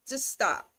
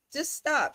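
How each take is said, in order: First: Said in the usual way. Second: "Just stop" pitched much higher, STOP stressed and falling; emphatic repeat. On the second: Real, not acted. Co-host repeating her order to the star with exasperated emphasis. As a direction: push the second "stop" hard.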